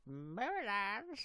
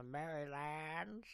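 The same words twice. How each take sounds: First: Marylands stretched slowly and pitched high, rising; exaggerated echo. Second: Said in the usual way. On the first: Streamer echoing the name Marylands for fun, exaggerated and drawn-out. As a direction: draw out Marylands with a high upward lilt. Echoes the place name back.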